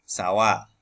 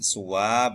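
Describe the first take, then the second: First: The first vowel is a. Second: The first vowel is u.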